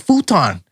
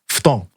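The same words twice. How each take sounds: First: The word has English pronunciation. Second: The word has Japanese pronunciation.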